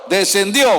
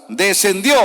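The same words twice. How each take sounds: No difference in how they are said.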